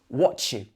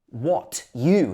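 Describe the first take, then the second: First: The two words run together as one. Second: The two words are said separately. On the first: "changes to" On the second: "What you here"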